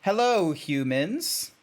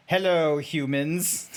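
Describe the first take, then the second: First: Stilted, deliberate hello with a questioning lilt; straight-faced. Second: Stilted greeting breaking into a laugh; amused, half-held character greeting; robotic zebra, not straight-faced. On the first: Shown as a demonstration. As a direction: greet them stiffly without laughing. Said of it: "do this as straight-faced as possible". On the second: Acted. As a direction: start the zebra voice while fighting giggles. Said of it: "let me try and do this as straight-faced as possible".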